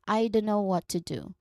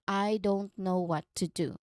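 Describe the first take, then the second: First: It is said quickly with sounds run together. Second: It is said slowly, each sound distinct. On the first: "Now practice naturally" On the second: "Say slowly"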